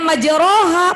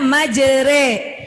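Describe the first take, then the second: First: The vowel after r is an open 'a'. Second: The vowel after r is a fronted 'e'. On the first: This is how the word is written. "Tulisannya majroha, patah berdiri" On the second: This is how the word is recited with imalah. "tapi dibacanya majere"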